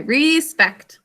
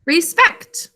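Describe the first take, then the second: First: Slow dictation. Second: Rising check. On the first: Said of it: "Okay, respect". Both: Shown as a demonstration.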